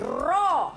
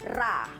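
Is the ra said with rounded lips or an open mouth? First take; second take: rounded; open. First: The ra is thick, with rounded lips. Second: The ra is thin, with an open mouth. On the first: The speaker calls it right. "mulut kita mesti berada dalam keadaan bulat" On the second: The speaker calls it wrong. "sebutan yang salah ialah ra"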